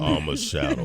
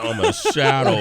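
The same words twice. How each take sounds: First: It is said in a deeper voice. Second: It is said in a normal voice.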